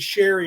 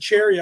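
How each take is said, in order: First: The name begins with a 'sh' sound. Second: The name begins with a 'ch' sound. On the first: The speaker calls it right. "I bet your name is Sherry" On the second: The speaker calls it wrong. "I've been saying Cherry"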